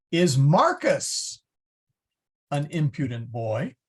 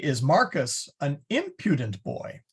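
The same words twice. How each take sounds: First: "Marcus" hit hard and slow, the rest falling away; stress on Marcus. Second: "impudent" carries the weight while "Marcus" stays light; stress on impudent. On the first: Teacher to class, showing the focus falls on "Marcus". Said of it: "you'd kinda have to hit that Marcus pretty hard". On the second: Teacher to class, showing the focus now on "impudent". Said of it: "So the emphasis is there". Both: Shown as a demonstration.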